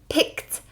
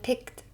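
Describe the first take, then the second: First: The sounds are pushed out with force. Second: The sounds are said softly, without force. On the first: The speaker calls it right. "We want to go" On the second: The speaker calls it wrong. "we're not just saying"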